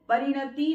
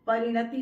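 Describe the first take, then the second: First: परिणति with a stressed long final "tee"; wrong pronunciation. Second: परिणति with short, light i sounds; correct pronunciation. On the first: Teacher shows the error, long-ended परिणति. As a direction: stretch the ending of परिणति. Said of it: "परिणति नहीं होता". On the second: Teacher models correct word, short-ended परिणति. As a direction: keep the last vowel of परिणति brief. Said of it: "परिणति होता है". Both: Shown as a demonstration.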